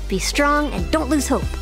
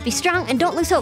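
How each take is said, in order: First: It is said a little faster. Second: It is said very fast.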